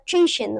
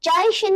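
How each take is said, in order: First: The first syllable has an 'ee' vowel. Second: The first syllable has an 'ai' vowel. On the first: The speaker calls it right. "ची शिन होता है" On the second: The speaker calls it wrong. "चाय शिन नहीं होता"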